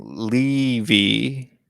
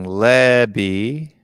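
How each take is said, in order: First: "Levy" with a long ee first, drawn out; Levy as LEE-vee. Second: "Levy" with a short e, drawn out; Levy as LEH-bee. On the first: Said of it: "you've got Cody Mack saying". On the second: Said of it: "you got David here saying". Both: Shown as a demonstration.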